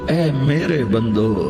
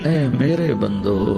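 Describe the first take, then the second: The two takes are said the same way.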